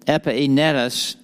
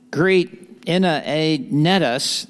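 First: Said in the usual way. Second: Slow Texas drawl on greet Epaenetus; Texas accent. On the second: Shown as a demonstration. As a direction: draw out greet Epaenetus like a Texan. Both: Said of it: "that's the best I can do with the Texas accent".

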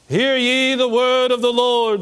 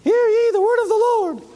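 First: Slow, booming prophet proclamation. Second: Squeaky falsetto prophet; mock the prophet with a silly high voice. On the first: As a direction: proclaim it like an Old Testament prophet. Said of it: "What would a prophet sound like to you? Let's try". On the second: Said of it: "Would you respect a prophet that sounded like that?". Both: Shown as a demonstration.

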